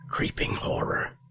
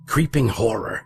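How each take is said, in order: First: It is said in a barely audible whisper. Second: It is shouted at full volume.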